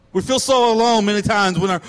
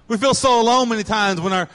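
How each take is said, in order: Both takes have the same delivery.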